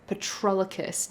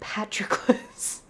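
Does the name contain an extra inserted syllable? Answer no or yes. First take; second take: yes; no. First: The name is said with an extra syllable. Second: The name is said without an extra syllable. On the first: The speaker calls it wrong. "inserting a syllable that didn't actually need to be there" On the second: The speaker calls it right. "His name is Patroclus"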